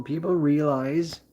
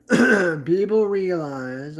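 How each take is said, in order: First: Said in the usual way. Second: People realize drawn out slowly, people leaned on; slow stressed people realize. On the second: Shown as a demonstration. Repeating it slowly for viewers, people realize stressed. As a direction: stretch out people realize with weight.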